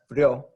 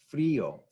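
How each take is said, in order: First: The i and o blend into one syllable. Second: The i and o are said as separate syllables. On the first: The speaker calls it wrong. "It's not frio" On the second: The speaker calls it right. "Here we separate it and it becomes frio"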